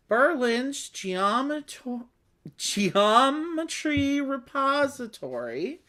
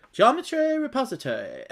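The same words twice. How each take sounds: First: Said in the usual way. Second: Geometry repository said as "jom-etry" to rhyme with repository, half laughing; mock British-Irish way of saying geometry repository; guessed British rhyme. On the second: Shown as a demonstration. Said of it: "probably a rhyme in British or Irish English".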